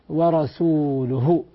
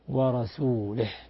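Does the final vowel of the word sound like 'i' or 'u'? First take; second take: u; i. First: The word ends with a 'u' vowel. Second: The word ends with an 'i' vowel. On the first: God and his messenger are both free of the idolaters. The speaker calls it right. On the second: God is free of the idolaters and of his messenger. The speaker calls it wrong.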